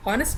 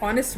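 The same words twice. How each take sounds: First: "हॉनेस्ट" with the H sounded first; H pronounced. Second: "ऑनेस्ट" opening on the vowel, H dropped; silent H. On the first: Teacher telling pupils what she is not saying, H sounded in "हॉनेस्ट". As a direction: voice the H at the start of "हॉनेस्ट". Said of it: "हॉनेस्ट नहीं बोल रही हूँ". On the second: Teacher asking pupils to notice the word, silent H in "ऑनेस्ट". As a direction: say "ऑनेस्ट" without any H sound. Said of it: "ऑनेस्ट बोल रही हूँ". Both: Shown as a demonstration.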